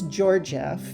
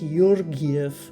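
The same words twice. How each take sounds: First: The surname is said in an anglicized way. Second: The surname is said in its original way.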